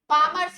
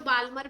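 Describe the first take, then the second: First: The L sound is left out of the name. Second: The L sound is pronounced in the name. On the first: "वैसे एल silent." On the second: "कई लोग बाल्मर भी बोलते हैं"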